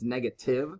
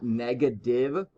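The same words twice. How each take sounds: First: The middle consonant sounds like a crisp T. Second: The middle consonant sounds like a D. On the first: The speaker calls it right. "it's negative with a T" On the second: The speaker calls it wrong. "it's not negative with like a D"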